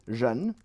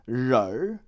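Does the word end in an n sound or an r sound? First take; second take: n sound; r sound. First: The word ends with an n sound. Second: The word ends with an r sound. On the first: "we can also say ren" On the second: "rör instead of ren, it becomes rör"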